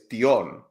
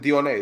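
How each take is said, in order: First: The final E is silent. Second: The final E is sounded as a syllable. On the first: The speaker calls it right. "Just don't pronounce the E. It's a silent one" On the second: The speaker calls it wrong. "actually isn't Dione"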